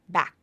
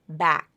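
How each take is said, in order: First: The final K is held without audible release. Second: The final K is released with audible air. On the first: "typically that K is unreleased" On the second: "Usually there's the release, like in the word back"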